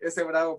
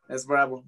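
First: The first word is Spanish 'ese', two syllables. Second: The first word sounds like English 'ace', one syllable. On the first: This is how Spanish speakers read the name. "Y en español es este bravo" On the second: This is how English speakers would read the name. "si alguien alguna vez veía mi apodo en Estados Unidos y no sabía español, se podía precisamente pronunciar como es bravo"

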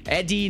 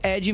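First: It is said with an English-speaking accent. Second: It is said with a plain Portuguese accent. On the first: This is how the developer said it. "no sotaque lá do cara" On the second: This is the plain reading of the spelling. "mesmo de ED"

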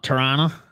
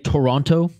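First: It uses an Ontario pronunciation. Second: It uses a Western Canadian pronunciation. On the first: "not Toronto, like those in Ontario" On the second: "I actually say Toronto"

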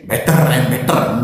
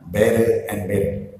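First: The t in 'better' is a clear, crisp t sound. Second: The t in 'better' is a soft, d-like sound. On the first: The speaker calls it wrong. "no, yeah?" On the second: The speaker calls it right. "T become D"

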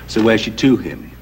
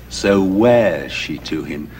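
First: The verb wears is not given the stress. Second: The verb wears carries the main stress. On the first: The speaker calls it wrong. "you said" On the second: The speaker calls it right. "but surely it's so wears she to him"

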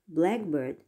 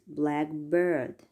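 First: The stress falls on 'black'. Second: The stress falls on 'bird'. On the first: It is a single compound word. "Compounds usually have a heavy stress on the first syllable" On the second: It is a combination of two separate words.

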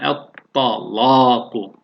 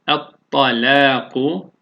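First: The L is pronounced heavy and thick. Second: The L is pronounced light and thin. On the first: "kalın okunduğunda" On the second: "ince okuyoruz"

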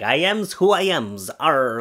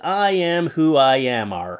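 First: It is said in a Popeye voice. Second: It is said in his normal voice.

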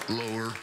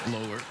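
The two takes are said the same way.

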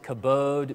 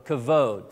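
First: The middle consonant is a b sound. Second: The middle consonant is a v sound. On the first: This is how some other people pronounce it. "you may have heard some pronounce it kabod" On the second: This is the speaker's preferred pronunciation. "So kavod"

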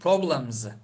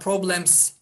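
First: The final sound is a buzzing z. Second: The final sound is a hissing s. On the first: The speaker calls it right. "Bunlara S eklediğimiz zaman bunu Z gibi okuyacağız" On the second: The speaker calls it wrong. "Buna problems diyemeyiz"

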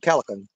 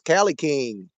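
First: The name ends with a short 'can' sound. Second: The name ends with the word 'king'. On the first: The speaker calls it wrong. "I was trying to get that pronounced right. I was going Calican" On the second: The speaker calls it right. "It's Cali King"

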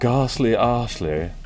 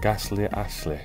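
First: It is said in a posh accent. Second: It is said in a northern accent. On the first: "I sound posh the first way" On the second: "I sound northern the other way"

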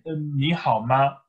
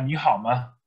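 First: The final ma has a high level tone. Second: The final ma is light and toneless. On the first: This is the official form taught in school. "offiziell oder in der Schule wird gelernt, ni hao ma, erster Ton" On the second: This is the casual everyday form. "in der Umgangssprache kann man auch sagen"

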